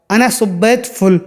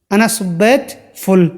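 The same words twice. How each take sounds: The two takes are said the same way.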